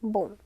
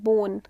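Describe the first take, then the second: First: It ends in a nasal vowel without n. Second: A separate n sound is heard at the end. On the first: The speaker calls it right. "there is just a nasal sound bon" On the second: The speaker calls it wrong. "we are not pronouncing it bon"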